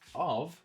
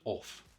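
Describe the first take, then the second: First: The word ends with a voiced v sound. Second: The word ends with a voiceless f sound. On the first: The speaker calls it right. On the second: The speaker calls it wrong.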